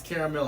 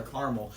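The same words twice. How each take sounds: First: Caramel as "CARE-a-mel"; three-syllable caramel. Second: Caramel as "CAR-mul"; two-syllable caramel. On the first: Quizzing a suitor on the word, "CARE-a-mel". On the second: Quizzing a suitor on the word, "CAR-mul". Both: Shown as a demonstration. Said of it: "If he pronounces it how".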